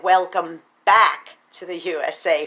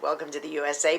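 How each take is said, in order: First: "back" leaned on, set against the plain sign; stress on back. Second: Said in the usual way. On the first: Shown as a demonstration. To husband Michael, wishing the sign said "back", stressing it. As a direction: lean into "back" as the missing word. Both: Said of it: "But of course it just said".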